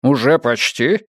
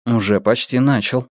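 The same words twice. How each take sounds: First: "Уже почти?" slowed, rising at the end; drawn-out "Уже почти?" with a questioning lift; questioning echo. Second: Even, understated serious answer; serious reply. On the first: Boss echoes the reply, questioning. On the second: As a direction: answer matter-of-factly, in earnest. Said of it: "серьёзно ответил Йона". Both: A narrator's reading.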